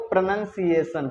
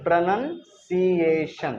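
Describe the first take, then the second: First: Said in the usual way. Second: Pronunciation stretched out very slowly, every syllable drawn out; slow careful pronunciation. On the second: Shown as a demonstration. Teacher drawing out pronunciation very slowly for the class. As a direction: spell the sounds out slow for students. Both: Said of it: "हम लोग सीख रहे हैं rules of".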